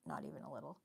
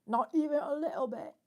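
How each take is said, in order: First: Said in the usual way. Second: Loud, high, hammed-up British accent. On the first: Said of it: "Can I do it? Probably not". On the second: Shown as a demonstration. Streamer showing chat her British accent, loud and high. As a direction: belt it out in a mock posh British accent. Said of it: "I love a British accent".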